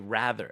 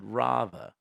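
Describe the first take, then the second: First: It is said with an American accent. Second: It is said with a British accent. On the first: This is how Americans say it. "we say rather" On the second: This is how he said it. "he said rather"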